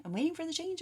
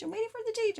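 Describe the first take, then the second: First: High sing-song mocking whine; mock impatient querent. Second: Even higher, louder mocking whine; mock impatient querent. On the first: Reader mimics Aquarius waiting for the change, high mocking sing-song. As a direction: tease the client, voice lifted and far off. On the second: Reader mimics Aquarius waiting for the change, peak squeaky mockery.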